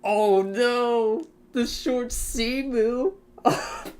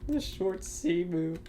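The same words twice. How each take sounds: First: Horrified delight. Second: Said in the usual way. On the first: Real, not acted. Remembering an even uglier plane.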